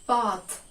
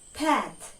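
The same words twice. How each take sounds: First: It is said with a British accent. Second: It is said with an American accent. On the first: "British English, we pronounce the word path as path" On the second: "But American English is path"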